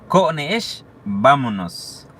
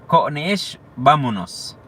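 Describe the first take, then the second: The two takes are said the same way.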